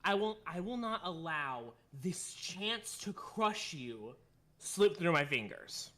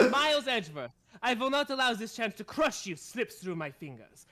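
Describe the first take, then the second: First: Put-on slow, careful German-accented menace. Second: Put-on louder, confident German-accented threat; German accent, full flow. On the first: Von Karma threatening Edgeworth, slow careful German accent. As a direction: lean into the German accent word by word. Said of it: "This is a hard one". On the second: Von Karma threatening Edgeworth, confident German accent. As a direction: nail the accent in one sweep. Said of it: "There we go".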